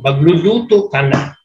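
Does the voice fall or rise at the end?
falls. The voice falls at the end, like an order.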